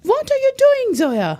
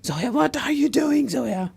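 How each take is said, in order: First: Much higher, louder pretend yell; hammed-up road rage yell; mock shout. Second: Higher, slow half-hearted telling-off; a gentle mock shout at a driver; lightly acted road rage; mild mock scolding. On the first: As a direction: shout it like an angry driver. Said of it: "Shout at me". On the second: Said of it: "pretend you're shouting at me". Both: Shown as a demonstration.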